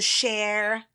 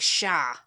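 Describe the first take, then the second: First: It is said with an American r at the end. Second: It is said with a British open vowel, no r. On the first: "we might go Share" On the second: "in British English, it would be pronounced like Shah"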